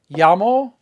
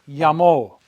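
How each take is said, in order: First: The stress is on the first syllable. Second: The stress is on the last syllable. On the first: I call. "Listen to the difference" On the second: She called. "it gets an accent mark"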